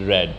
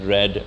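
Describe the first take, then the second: The two takes are said the same way.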